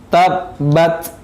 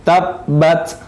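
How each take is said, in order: First: The final t is released with flowing breath. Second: The final t is released with flowing breath.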